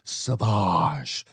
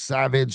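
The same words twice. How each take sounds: First: It sounds French, ending in a soft zh sound. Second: It sounds like the plain English word savage.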